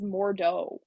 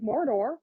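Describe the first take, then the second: First: The name ends in a plain 'o' sound. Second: The name ends with an 'r' sound. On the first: This is the name as it is written. "I Googled it and it's Mordo" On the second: It sounds like the place in Lord of the Rings. "they pronounce it Mordor. They're like Mordor"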